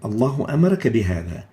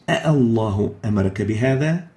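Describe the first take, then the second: First: The opening vowel is short. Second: The opening vowel is held long. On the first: It states that Allah ordered you. "The first one is a news" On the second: It asks whether Allah ordered you. "the second one is a question"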